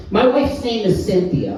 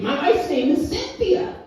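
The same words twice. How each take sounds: First: Said in the usual way. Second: Cynthia said high and pointed; My wife's name is Cynthia with Cynthia pitched up and firm; stress on Cynthia. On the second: Real, not acted. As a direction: lean hard on Cynthia to correct them.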